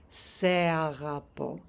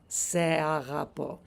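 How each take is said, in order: First: The 'se' is said as a separate syllable. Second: The same.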